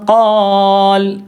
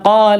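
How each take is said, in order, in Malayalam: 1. വ്യഞ്ജനത്തിലാണ് അവസാനിക്കുന്നത്, ദീർഘ സ്വരം നീട്ടിപ്പറയുന്നു. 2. ഹ്രസ്വ സ്വരത്തിലാണ് അവസാനിക്കുന്നത്, സ്വരം നീട്ടുന്നില്ല.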